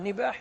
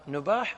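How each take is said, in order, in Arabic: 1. يأتي بعد الحرف الأول صوت i. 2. يأتي بعد الحرف الأول صوت a. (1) "أما بالكسر لا" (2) "يا إما تقول بفتح النون"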